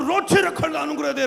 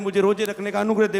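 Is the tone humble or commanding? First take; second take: commanding; humble. First: It is said forcefully, as a command. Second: It is said humbly, as a gentle request.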